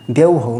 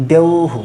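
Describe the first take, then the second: First: "দেউহৌ" with final hou as a diphthong; wrong echo hou. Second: "দেউহু" with long ou, short final hu; visarga as hu. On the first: Teacher rejects this form for students, mistaken pronunciation. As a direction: finish "দেউহৌ" on a full hou. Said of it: "দেউহৌ না". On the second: Teacher gives the correct form, demonstrating pronunciation. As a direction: end "দেউহু" in a quick hu, not hou. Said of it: "এটা হবে". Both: Shown as a demonstration.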